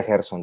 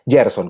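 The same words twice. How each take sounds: First: "[name]" said as "Herson"; alternative pronunciation. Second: "[name]" said as "Yerson"; Y pronunciation. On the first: Guest allowing the other version of his name, "[name]" with a jota. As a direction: begin "[name]" with a Spanish jota, an H-like sound. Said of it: "se puede pronunciar [name] también". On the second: Guest confirming his name to the host, "[name]" with a Y sound. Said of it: "veo que lo pronuncias [name]". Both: Shown as a demonstration.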